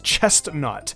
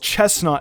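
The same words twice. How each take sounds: First: There is a t sound after 'ches'. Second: There is no t sound after 'ches'. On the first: The speaker calls it wrong. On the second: The speaker calls it right.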